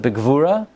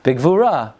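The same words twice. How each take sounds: First: The stress falls on the final syllable. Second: The same.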